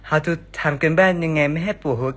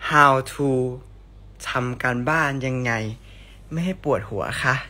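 First: It is read in a put-on character voice. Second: It is read in a plain, ordinary voice.

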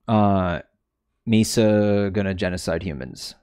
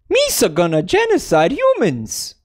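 First: It is said in the speaker's ordinary natural voice. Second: It is said in a put-on cartoon character voice.

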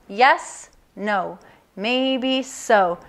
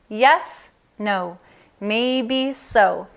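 Both takes have the same delivery.

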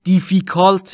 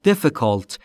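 First: The i vowels are drawn out long. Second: The i vowels are said short. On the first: The speaker calls it wrong. "difficult نیست" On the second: The speaker calls it right. "دوتاش به صورت کوتاه"

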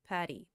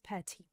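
First: The middle T sounds like a soft D. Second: The middle T is a crisp, clear T. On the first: "Двойная T в американском английском превращается во flap T" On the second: "В британском произносится true T"

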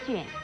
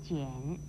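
First: It is said with a falling fourth tone. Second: It is said with a dipping third tone. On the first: It means a book scroll or a test paper. "四声卷" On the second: It means to roll up or put away. "三声卷"

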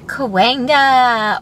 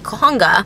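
First: The second syllable starts with a w sound. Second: The second syllable starts with an h sound. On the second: "Or as my MapQuest likes to tell me"

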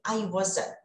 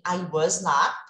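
First: 'Was not' is contracted into one word. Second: The words 'was' and 'not' are said separately. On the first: It is an ordinary, unemphatic denial. "na fala, eu já vou direto aqui" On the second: The speaker is stressing the denial. "eu posso acrescentar o not, simples assim"

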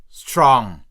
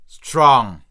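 Both takes have the same delivery.

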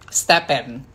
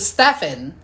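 First: The middle consonant is a P sound. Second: The middle consonant is an F sound. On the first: This is how the family says the name. "But my mom is different" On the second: This follows the spelling with PH. "PH, it sounds like an F, right? So Stefan"

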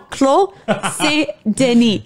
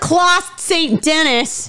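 First: The name is pronounced the French way, silent letters unsaid. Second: The name is pronounced in a deliberately mangled, anglicized way. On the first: It is a genuine attempt at the proper name. The speaker calls it right. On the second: It is said badly on purpose to spite someone. The speaker calls it wrong. "I'm going to butcher it on purpose"

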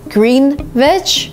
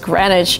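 First: The word is said as 'green-wich' with a w sound. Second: The word is said as 'gren-itch' with no w sound. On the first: The speaker calls it wrong. "You would kind of read it in this way" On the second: The speaker calls it right. "the right way to say it is Greenwich"

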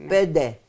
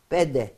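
No difference in how they are said.

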